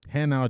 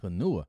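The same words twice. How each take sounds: First: Hanau said HAH-now, stress first; correct German Hanau. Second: Hanua said as huh-NOO-uh, stress on the middle; mispronounced Hanua. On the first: Soldier naming his real posting, Hanau said correctly. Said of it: "the name is pronounced Hanau". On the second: New soldier misreading his posting, mispronouncing Hanua. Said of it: "I thought it said Hanua, not Hanau". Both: Shown as a demonstration.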